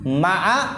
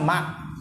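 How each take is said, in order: First: The word ends with a short a vowel. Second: The word ends on the consonant with no vowel. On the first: The speaker calls it right. "ainnya di fathah lebih fasih" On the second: The speaker calls it wrong. "ainnya sukun"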